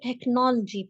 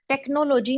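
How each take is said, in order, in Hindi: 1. o स्वर लगभग silent है। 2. o स्वर पूरा बोला जाता है। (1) "ओ जो है वो इसमें ऑलमोस्ट काफी ज्यादा साइलेंट है" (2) "टेक्नोलॉजी नहीं पढ़ना"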